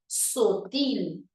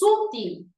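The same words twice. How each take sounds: First: The stress is on the last syllable. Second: The stress is on the first syllable. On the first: The speaker calls it right. "la palabra es sutil, es una palabra aguda" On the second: The speaker calls it wrong. "no es sutil, no es grave"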